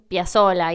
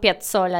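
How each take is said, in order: First: The double z is a plain s sound. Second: The double z is a ts sound. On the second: "no decimos"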